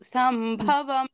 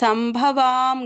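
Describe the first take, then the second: First: The vowel in the last syllable is short. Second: The vowel in the last syllable is long. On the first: The speaker calls it right. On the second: The speaker calls it wrong.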